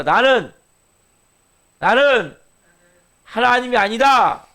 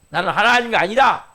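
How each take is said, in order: First: Loud, high, slow proclamation, pausing after each 나는; emphatic clear confession. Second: Raised, loud declaration in one run; clear confession. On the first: Preacher leads congregation in confessing, emphatic and deliberate. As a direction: proclaim it in separated chunks, 아니다 drawn out loud. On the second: Preacher models the confession for the congregation, clear and firm. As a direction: state it firmly, 아니다 landing loud. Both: Shown as a demonstration. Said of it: "분명히 고백이 돼야 돼요".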